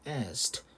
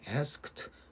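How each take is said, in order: First: The k sound before the t is dropped. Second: The k sound before the t is pronounced. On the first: "크 완전히 빼버려서 asked 하는 친구들도 있습니다" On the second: "크 굳이 크 하는 사람들도 있고요"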